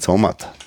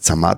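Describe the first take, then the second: First: The first vowel sounds like a Bavarian 'o'. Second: The first vowel sounds like a plain 'a'. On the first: The speaker calls it right. "sondern Zamat. Weil er ist ja anscheinend Bayer" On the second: The speaker calls it wrong. "man soll es eigentlich nicht als Zamat aussprechen"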